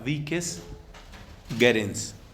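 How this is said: It uses the classical pronunciation of Latin. "al estilo clásico, suena"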